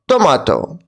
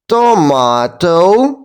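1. Слово вимовляють швидко. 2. Слово вимовляють повільно. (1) "And now let's say it quickly" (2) "now let's say this word slowly"

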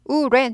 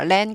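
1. 입술을 오므린 r 소리로 시작해요. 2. 평평한 l 같은 소리로 시작해요. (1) "랜 아니고 우랜이죠" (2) "랜 그럼 못 알아들어요"

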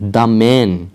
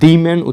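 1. 'the' শব্দটি 'thuh' হিসেবে উচ্চারিত হয়। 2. 'the' শব্দটি 'thee' হিসেবে উচ্চারিত হয়। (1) "আমরা উচ্চারণ করব হচ্ছে দ্য ম্যান" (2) "দি ম্যান উচ্চারণ করব না"

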